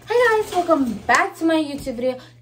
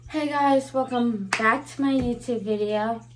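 First: It is said with high energy. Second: It is said with low energy.

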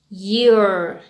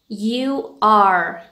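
First: It is said as one contracted syllable. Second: It is said as two separate words.

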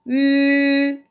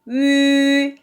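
The two takes are said the same way.

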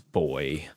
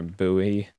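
First: The word is said exactly like boy. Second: The word is said the American way. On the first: The speaker calls it right. "It is boy" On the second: The speaker calls it wrong. "how Americans pronounce it wrong"

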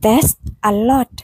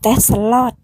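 First: The words are said separately. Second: The final s links into the next word. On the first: "จาก" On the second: "ก็เป็น ... ตัวสะกด h เชื่อมกับ a"

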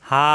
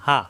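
First: The vowel is drawn out long. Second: The vowel is said short and quick. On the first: A madd letter follows the syllable. "লম্বা করতে হবে" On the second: No madd letter follows the syllable. "কোনো দেরি করা যাবে না, দ্রুত উচ্চারণ"

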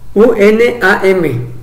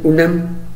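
First: The acronym is read out letter by letter. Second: The acronym is said as one word. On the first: The speaker calls it wrong. "Que es como decir UNAM" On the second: The speaker calls it right. "En lugar de decir UNAM"

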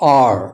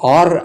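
First: The word ends on the vowel, no r sound. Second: The word ends with a pronounced r sound. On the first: The speaker calls it right. "ಸಾಮಾನ್ಯವಾಗಿ ಶಬ್ದದ ಕೊನೆಯಲ್ಲಿ ರ್ ಅಂದರೆ ಅದನ್ನು ಉಚ್ಚಾರಣೆ ಮಾಡೋದೇ ಇಲ್ಲ" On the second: The speaker calls it wrong. "ಇದು ಆರ್ ಆಗಲ್ಲ"

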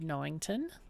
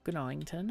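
First: The initial G is silent. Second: The initial G is pronounced. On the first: The speaker calls it wrong. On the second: The speaker calls it right.

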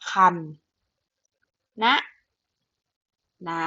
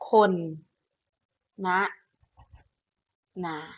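First: The first syllable is said as kham. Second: The first syllable is said as khon. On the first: "แบบที่หนึ่งคือคำนะนา" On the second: "และแบบที่3 อ่านได้ว่า"

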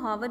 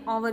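First: The word begins with an h sound. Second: The word begins with a vowel sound. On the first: The speaker calls it wrong. "हम इसको हावर नहीं कहते" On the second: The speaker calls it right. "आवर कहते हैं, मतलब अ से ये sound start हो रही है"

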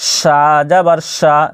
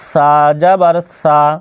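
First: The s is hissed very strongly. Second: The s is hissed softly. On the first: The speaker calls it wrong. "যদি এরকমভাবে করেন সা জাবার সা তাহলে কিন্তু এটি উচ্চারণ ভুল" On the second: The speaker calls it right. "আপনাকে কীভাবে বলতে হবে সা জাবার সা"

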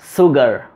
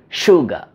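First: The word begins with a plain s sound. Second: The word begins with an sh sound. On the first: The speaker calls it wrong. "It is not sugar" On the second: The speaker calls it right. "We have to say sugar"

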